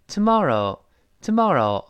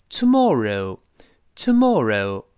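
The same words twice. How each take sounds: First: American "tomorrow" with open ah, tuh-MAH-roh; easy American "tomorrow", o blended; American pronunciation. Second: Slow British "tomorrow", rounded mor and reh-oo ending; British pronunciation. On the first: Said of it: "美国人都成". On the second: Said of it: "英国人是". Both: Shown as a demonstration.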